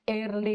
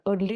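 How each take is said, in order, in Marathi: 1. शब्दाची सुरुवात 'air' आवाजाने होते. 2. शब्दाची सुरुवात 'er' आवाजाने होते. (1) "एअरली म्हणतात" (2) "अर्ली नाही म्हणत ते"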